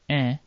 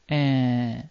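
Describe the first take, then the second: First: The nasal vowel is said very briefly. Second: The nasal vowel is held for a very long time. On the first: "It can appear short" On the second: "or double long"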